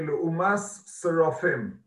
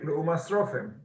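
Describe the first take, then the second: First: The words are said carefully, kept apart. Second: The words are said quickly, run together. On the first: The speaker calls it right. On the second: The speaker calls it wrong.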